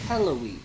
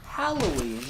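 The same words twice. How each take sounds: First: The first part sounds like 'hello'. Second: The first part sounds like 'hal'. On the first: The speaker calls it right. "Halloween is in hello, ween" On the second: The speaker calls it wrong. "Not Halloween"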